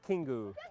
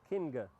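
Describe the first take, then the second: First: Two syllables, with an added final u vowel. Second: One syllable, ending in a plain ng sound. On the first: "Or in Japanese" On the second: "You have to sound it out"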